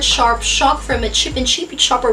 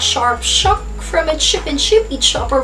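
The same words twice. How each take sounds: First: It is spoken at a faster pace. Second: It is spoken at a slower pace.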